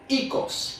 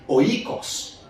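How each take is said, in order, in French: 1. Le mot commence par le son 'ee'. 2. Le mot commence par le son 'oy'. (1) "il vient prononcer ikos" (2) "dans le grec ancien. Il est prononcé oikos"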